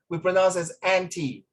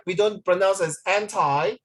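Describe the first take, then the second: First: "anti" said AN-tee with short ee; "anti" ending in a short ee sound; correct pronunciation. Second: Anti said as an-TIE with long i; "anti" rhymed with tie, wrong way; wrong stress. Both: Shown as a demonstration.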